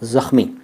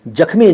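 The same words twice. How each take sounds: First: The word begins with a z sound. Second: The word begins with a j sound. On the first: The speaker calls it right. "ज के नीचे नुक्ता" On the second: The speaker calls it wrong. "जख्मी नहीं"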